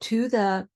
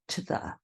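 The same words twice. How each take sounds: First: It is said as full separate words. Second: It is squished into a reduced form. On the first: "To the really becomes" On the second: "really becomes to the"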